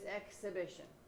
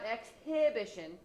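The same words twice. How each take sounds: First: The H sound in the middle is barely heard. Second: The H sound in the middle is clearly pronounced. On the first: The speaker calls it right. "It's just exhibition, so that you kind of go over the" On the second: The speaker calls it wrong. "It's not exhibition"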